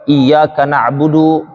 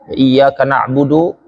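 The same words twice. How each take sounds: First: The final vowel is said short. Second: The final vowel is drawn out long. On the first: "itu pendek" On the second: "dipanjangkannya du"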